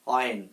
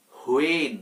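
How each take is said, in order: First: "অয়েন" as a short "wen", no h; silent h. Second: "হোয়েন" with a sounded h, "ho-en"; mispronounced h. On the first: Teacher giving learners the correct form of when, "অয়েন" with silent h. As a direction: open "অয়েন" straight on a w glide. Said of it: "এটার সঠিক উচ্চারণ হচ্ছে". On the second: Teacher showing learners the common mistake, "হোয়েন" with added h. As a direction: start "হোয়েন" on a breathed "ho". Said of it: "হ এখানে আসবে না". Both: Shown as a demonstration.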